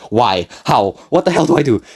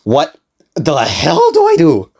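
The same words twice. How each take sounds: First: Mild retold panic. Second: Slow, high, hammed-up despair; drawn-out mock panic. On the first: Narrator asks himself as the clerk just stands there, mild mock panic. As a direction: ask it as a brisk, exasperated question. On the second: Narrator faced with drives and no money, drawn-out mock panic. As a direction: stretch it out, climbing in exaggerated alarm.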